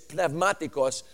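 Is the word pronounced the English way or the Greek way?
Greek. The word is said with a Greek pronunciation. "the way we say it in Greek is"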